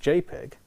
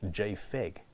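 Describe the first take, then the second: First: The middle consonant is a 'p' sound. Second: The middle consonant is an 'f' sound. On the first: "which we all pronounce JPEG" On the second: "So we should be pronouncing it JFEG"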